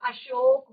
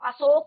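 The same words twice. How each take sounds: First: The word is said in a careful standard way. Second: The word is said in a careless everyday way. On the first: The speaker calls it right. "अशोक होता है" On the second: The speaker calls it wrong. "तो अशोक नहीं होता"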